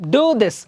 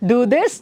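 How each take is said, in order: First: It is said firmly as a command. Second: It is said mildly, not as a command. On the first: It is an order. "That's a command" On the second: It is not an order. "ಅದು command ಅಲ್ಲ"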